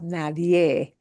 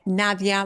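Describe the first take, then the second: First: The word ends in a spread 'eh' vowel. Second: The word ends in an open 'ah' vowel. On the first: The speaker calls it right. "And with a smile" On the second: The speaker calls it wrong. "English speakers often tend to want to say Nadia"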